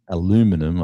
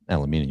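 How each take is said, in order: First: It is said with an American pronunciation. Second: It is said with a non-American pronunciation.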